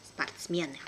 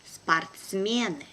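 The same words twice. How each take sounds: First: Brisk, natural native speed; quick native pace. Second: Slow and careful, drawn out for learners; teacher's careful slow reading. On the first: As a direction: say it fast like a native. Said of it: "second time will be quickly, like a native". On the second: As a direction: spell it out slowly for the class. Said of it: "one first time will be slow". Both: Shown as a demonstration.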